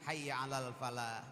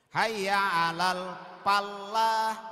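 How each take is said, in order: First: The l in falah is short and single. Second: The l in falah is doubled and held. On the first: Come to success. The speaker calls it right. "Hilangkan tasdidnya" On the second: Come to farming. The speaker calls it wrong. "mari bercocok tanam karena ada tasdid"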